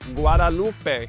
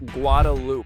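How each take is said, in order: First: It is said the outsider way, not the local way. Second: It is said the local Austin way. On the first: This is how non-locals say it. The speaker calls it wrong. "Anyone else who does not live in Austin or is not from here would pronounce it" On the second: This is how locals say it. The speaker calls it right. "we call it Guadalupe"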